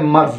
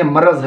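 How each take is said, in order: First: मर्ज़ with no vowel between r and z; the wrong मर्ज़, marz; wrong form. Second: मरज़ with a short a, ma-raz; correct form. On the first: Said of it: "ये लफ्ज़ मर्ज़ नहीं है". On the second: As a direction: say मरज़ in two syllables. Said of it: "मरज़ जो है ये सही वर्ड है". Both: Shown as a demonstration.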